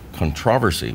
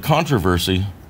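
First: The stress is on the second syllable. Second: The stress is on the first syllable.

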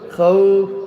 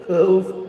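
First: The w is made with rounded lips. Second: The w sounds more like a v. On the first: The speaker calls it right. "এমনভাবে খাউফ হবে" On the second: The speaker calls it wrong. "খাউফ হবে না"

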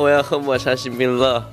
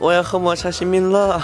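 First: It is said in a plain, ordinary voice. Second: It is said in a higher, coquettish voice.

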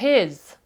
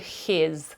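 First: The h is soft, between г and х. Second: The h is a rasping х sound. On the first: The speaker calls it right. "я говорю his. Щось середнє між ними" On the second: The speaker calls it wrong. "я не говорю his"

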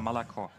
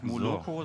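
First: The unstressed vowels are pronounced as a. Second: Every vowel is pronounced as a full o. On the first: The speaker calls it right. "sondern Malakor" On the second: The speaker calls it wrong. "also das heißt auch nicht Moloko"

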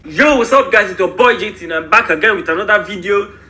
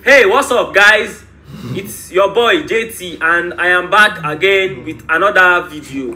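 First: It is said in his normal accent. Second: It is said in an African accent.

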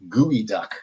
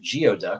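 First: The first part sounds like gooey. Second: The first part sounds like gee-oh. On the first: The speaker calls it right. "That is pronounced gooey duck" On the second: The speaker calls it wrong. "you might have pronounced it geoduck, which seems logical"

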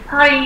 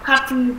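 First: It is said with an American English accent. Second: It is said with a British English accent. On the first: "party là anh Mỹ" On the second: "còn party là anh"

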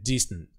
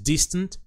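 First: The final T sound is swallowed, not released. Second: The final T sound is clearly released. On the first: "Eu já boto esse som meio que engolindo ele" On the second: "Mas distant tá legal também"

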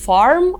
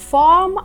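First: The r after the vowel is pronounced. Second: The r after the vowel is silent.

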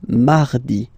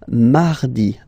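The two takes are said the same way.

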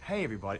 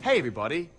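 First: It is said too quietly. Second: It is said at a moderate volume.

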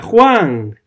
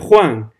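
First: The name is shouted loudly. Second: The name is said somewhat louder than before. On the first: "Ella grita" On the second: "Ella más alto"

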